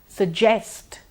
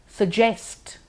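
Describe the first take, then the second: Both takes have the same delivery.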